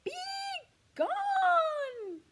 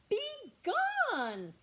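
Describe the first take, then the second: First: Far louder, much higher "Be gone!" roar; an enormous roar of "Be gone!"; full roar. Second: Loud, higher bear roar; a big roar of "Be gone!". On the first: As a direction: bellow "Be gone!" with everything. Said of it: "Look at him roaring". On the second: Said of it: "roared Bear". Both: Acted.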